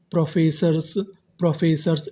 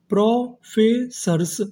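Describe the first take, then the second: First: Said in the usual way. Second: professors split slowly into pro, फे, sirs; syllable-by-syllable. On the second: Shown as a demonstration. Teacher building professors for students, slow and split. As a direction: draw out each part of professors separately. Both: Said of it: "तो इतनी meaning क्या बनी".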